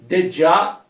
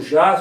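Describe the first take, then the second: First: The word begins with a 'dj' sound. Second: The word begins with a soft 'zh' sound. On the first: This is how the host's accent made it sound. "na pronúncia ficava de já" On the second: This is the actual word. "na verdade é o já"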